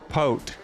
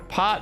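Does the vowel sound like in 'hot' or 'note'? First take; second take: note; hot. First: The vowel sounds like the one in 'note'. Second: The vowel sounds like the one in 'hot'. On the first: The speaker calls it wrong. "I keep saying it wrong" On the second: The speaker calls it right. "pot, not pote"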